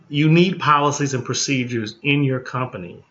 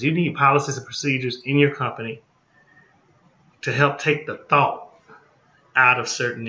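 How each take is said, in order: First: Said in the usual way. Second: Fast and blunt, no dressing it up; just say it like it is, quickly; blunt, straight talk. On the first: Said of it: "No, I'ma just, just say it like it is". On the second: Shown as a demonstration. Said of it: "just say it like it is".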